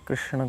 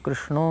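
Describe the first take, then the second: First: The name ends with a short vowel. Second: The name ends with an o vowel.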